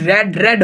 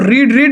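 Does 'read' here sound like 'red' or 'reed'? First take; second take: red; reed. First: The vowel is short, like 'red'. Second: The vowel is long, like 'reed'. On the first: The speaker calls it right. "बल्कि रीड रेड रेड होगा" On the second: The speaker calls it wrong. "रीड रीड नहीं होगा"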